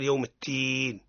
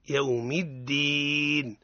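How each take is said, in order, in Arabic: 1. صوت d ضعيف ومهموس. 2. صوت d قوي ومجهور. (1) "حتى لا يلتبس بالمجانس اللي هي قل يوم الدين، هذا خطأ" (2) "يوم الدين نعطيه الشدة ونعطيه الجهر"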